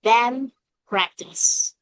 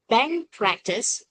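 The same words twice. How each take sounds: First: "band practice" with the d dropped, "bam practice"; "band" blurred into "bam" before "practice"; fast-speech assimilation. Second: Said in the usual way. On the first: Shown as a demonstration. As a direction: drop the d and close the lips for m. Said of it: "we still sound like".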